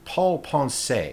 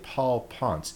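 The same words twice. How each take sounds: First: The name is said with a Spanish accent. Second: The name is said with an American accent. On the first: "if you were Spanish, you would say" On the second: "as Norte Americanos, we would say"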